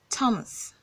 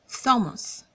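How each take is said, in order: First: The name begins with a t sound. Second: The name begins with a th sound. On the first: The speaker calls it right. "in this case it makes the t sound" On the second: The speaker calls it wrong. "So it's not Thomas"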